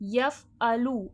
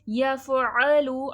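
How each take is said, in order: First: The middle consonant is a plain glottal stop. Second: The middle consonant is a clear throaty ain. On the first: The speaker calls it wrong. "ऐसा नहीं पढ़िएगा" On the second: The speaker calls it right. "आइन की आवाज़ को प्रॉपर वाज़े करिएगा"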